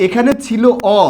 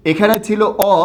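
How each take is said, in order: Both takes have the same delivery.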